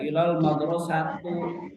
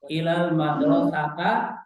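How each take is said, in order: First: The last word ends in an u vowel. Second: The last word ends in an a vowel. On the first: "Tidak boleh ilal madrasatu, salah"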